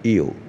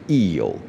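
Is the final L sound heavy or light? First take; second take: light; heavy. First: The final L is pronounced lightly and relaxed. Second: The final L is pronounced heavily and deliberately. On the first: The speaker calls it right. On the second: The speaker calls it wrong.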